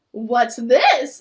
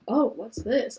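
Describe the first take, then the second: First: Nervous bad liar. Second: Badly faked surprise; nervous bad liar. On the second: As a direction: act surprised but unconvincingly. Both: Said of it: "In the most unconvincing tone".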